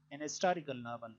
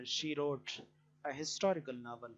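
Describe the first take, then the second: First: "an historical", h dropped; "an historical" unpronounced h; an with silent h. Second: "a historical", h sounded; "a historical" with a breathed h; a with spoken h. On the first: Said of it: "we say". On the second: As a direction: say "a historical" with the h pronounced. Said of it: "If it is pronounced". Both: Shown as a demonstration.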